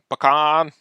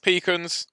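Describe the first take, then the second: First: The word is said the American way. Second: The word is said the British way.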